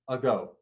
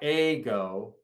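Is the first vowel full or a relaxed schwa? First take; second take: relaxed; full. First: The first vowel is a relaxed schwa. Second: The first vowel is a full, tense vowel. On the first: The speaker calls it right. "It's a relaxed syllable" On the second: The speaker calls it wrong. "It's not ago"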